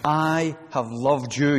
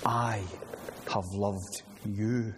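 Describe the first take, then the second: First: I have loved you, each word slow, the you rising; slow weighty quote. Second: Softer, slow I ... have loved you, a pause after I; quiet, slow marvelling over I have loved you; hushed in wonder. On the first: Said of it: "never hear more awesome and astounding words". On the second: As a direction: let I hang, then breathe have loved you softly and slowly. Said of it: "Now listen to it and marvel again". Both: Shown as a demonstration.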